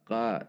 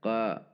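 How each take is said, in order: Both takes have the same delivery.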